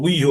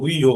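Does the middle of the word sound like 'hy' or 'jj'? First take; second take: hy; hy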